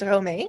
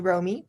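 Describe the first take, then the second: First: The name is said with Dutch-style vowels. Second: The name is said with English-style vowels. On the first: The name's real pronunciation. "but it's Romee" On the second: A simplified version for English speakers. "For English uh, speaking people, you can say Romy"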